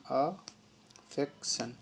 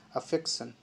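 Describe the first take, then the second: First: affection stretched out very slowly, syllable by syllable; teacher drags out affection so students catch each sound; slow drawn-out demo. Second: Said in the usual way. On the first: Shown as a demonstration. Teacher modeling affection for students, very slow and drawn out. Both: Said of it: "दोनों तरीके से पढ़ रहे हैं".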